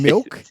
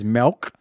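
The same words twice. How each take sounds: First: The vowel is a short i sound. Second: The vowel is a short e sound. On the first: "Instead of saying milk" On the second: "he says milk with an E"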